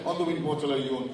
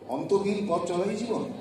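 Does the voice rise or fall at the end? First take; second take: fall; rise. First: It is said as a statement, falling. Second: It is said as a question, rising.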